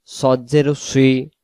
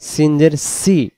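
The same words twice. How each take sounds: First: সদ জের সুই, slow, with a rounded "swee"; heavy Sad. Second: সিন জের সি, slow, with a thin "see"; spread, unrounded সি; light Sin. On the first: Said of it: "সদের বেলায় সদের মতো". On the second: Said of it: "সিনের বেলা সিনের মতো". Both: Shown as a demonstration.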